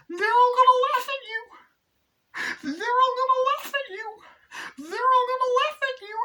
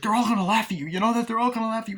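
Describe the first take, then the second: First: Very high, loud screechy mimicry; mother's remembered taunt. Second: High, loud heated warning; arguing mother. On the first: Mother's words ring in Carrie's head, screeched taunt. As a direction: screech it in a put-on falsetto, over and over. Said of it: "and then you just hear". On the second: Retold or imitated. Mother argues with Carrie before prom, heated warning. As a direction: imitate a mother's raised-voice argument. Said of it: "when her and the mother were arguing".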